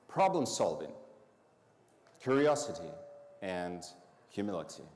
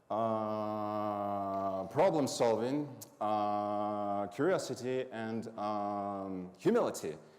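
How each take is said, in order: First: The list flows smoothly without hesitation sounds. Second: The list is broken by uh and um hesitations. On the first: The speaker calls it right. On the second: The speaker calls it wrong.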